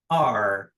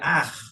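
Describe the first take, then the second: First: The final r is a soft, English-like r. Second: The final r is a dragged, throaty r. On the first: The speaker calls it right. "O R do paulista é o R perfeito para falar inglês" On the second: The speaker calls it wrong. "a gente fala um R bem arrastado, né? Seria ar, mas não é a forma correta"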